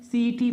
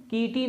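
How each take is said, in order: First: सीटी said with a clear s, as siti; demonstrating the right s in सीटी; correct reading city. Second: कीटी said with a hard k, as kiti; demonstrating the wrong k in कीटी; wrong reading kiti. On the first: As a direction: read सीटी with the s sound. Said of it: "इसको क्या पढ़ा जाता है?". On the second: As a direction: read कीटी wrongly with a k sound. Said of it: "इसको कीटी नहीं पढ़ेंगे". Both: Shown as a demonstration.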